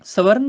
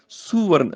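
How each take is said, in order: First: "ਸਵਰਨ" starting with short sa; wrong first vowel. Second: "ਸੁਵਰਨ" starting with a clear su; u after S. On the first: Teacher shows what to avoid, "ਸਵਰਨ" with sa. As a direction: say "ਸਵਰਨ" as sa-varn, no u. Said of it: "ਸਵਰਨ ਨਹੀਂ ਬੋਲਣਾ". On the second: Teacher corrects the reading, "ਸੁਵਰਨ" with su. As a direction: say "ਸੁਵਰਨ" as su-varn. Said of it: "ਸੱਸੇ ਨੂੰ ਔਂਕੜ ਹੈਗੀ ਹੈ". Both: Shown as a demonstration.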